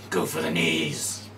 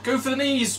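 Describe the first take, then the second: First: Slow, low Minsk growl; low barbarian voice. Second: High, loud cheering cry; high shout. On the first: Retold or imitated. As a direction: drop low and slow, a brute. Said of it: "No, that's Minsk". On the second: Pretend. Same quote said two ways.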